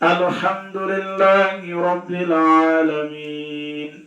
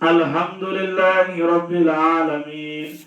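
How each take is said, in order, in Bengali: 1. alhamdu-তে h ধ্বনিটি সুনির্দিষ্টভাবে উচ্চারিত হয়। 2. alhamdu-তে h ধ্বনিটি অগোছালোভাবে উচ্চারিত হয়। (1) "সহি করে বললাম" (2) "অর্থ পাল্টে"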